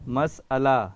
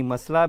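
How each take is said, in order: First: مسئلہ said carefully as "mas-ala"; correct pronunciation. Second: مسئلہ said as two syllables, "mas-la"; wrong "MAS-la" reading of مسئلہ; mispronounced مسئلہ. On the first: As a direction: split مسئلہ after the s: "mas", then "ala". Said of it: "اس کا صحیح تلفظ ہے". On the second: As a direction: run مسئلہ together as "masla", dropping the middle vowel. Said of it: "اس کا صحیح تلفظ نہیں ہے". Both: Shown as a demonstration.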